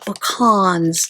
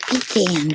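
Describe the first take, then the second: First: It is pronounced the New Mexico way. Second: It is pronounced the Southern way. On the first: "they call it pecans in New Mexico" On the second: "You Southern people, I don't know where you get pecan from"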